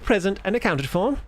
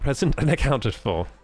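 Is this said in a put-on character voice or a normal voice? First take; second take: character voice; normal voice. First: It is said in a put-on character voice. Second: It is said in a plain, natural voice. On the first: The speaker calls it right. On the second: The speaker calls it wrong.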